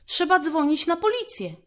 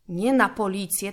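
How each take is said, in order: First: Said in the usual way. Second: Correcting stress, "Nie na" leaned on. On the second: A narrator's reading. Brother correcting sister, stressing "Nie na policję". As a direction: put the weight on "Nie na" to correct her. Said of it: "brat poprawił siostrę".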